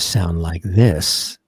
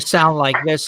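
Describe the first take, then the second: First: The voice sounds full and rich, like a studio. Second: The voice sounds thin and tinny, like a phone. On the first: This is how it sounds through a good studio microphone. The speaker calls it right. "You wanted to sound like this" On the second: This is how it sounds through a phone microphone. The speaker calls it wrong. "on a cell phone"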